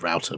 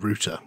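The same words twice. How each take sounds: First: Router is said with an American pronunciation. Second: Router is said with a British pronunciation.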